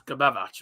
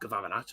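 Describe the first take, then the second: First: The second consonant sounds like a b. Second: The second consonant sounds like a v. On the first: The speaker calls it right. "it's Gabavarac" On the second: The speaker calls it wrong. "but not uh, Gavavanac"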